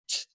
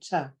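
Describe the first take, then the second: First: The t is said alone with no vowel. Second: The t is followed by a weak vowel. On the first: The speaker calls it right. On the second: The speaker calls it wrong.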